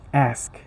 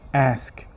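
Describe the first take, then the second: Both takes have the same delivery.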